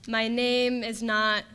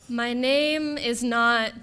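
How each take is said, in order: No difference in how they are said.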